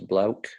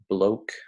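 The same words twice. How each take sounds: First: The vowel is said the Australian way. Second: The vowel is said the American way.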